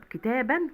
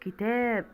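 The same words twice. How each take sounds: First: كتابا ending in a sounded -an; نطق التنوين. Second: Said in the usual way. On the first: Shown as a demonstration. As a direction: let the n ring at the end of كتابا. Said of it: "بتنطق فقط". (نطق كتابا بنون ساكنة في آخرها) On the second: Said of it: "التنوين نون هو ما بتتكتبش".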